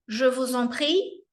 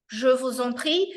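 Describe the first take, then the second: No difference in how they are said.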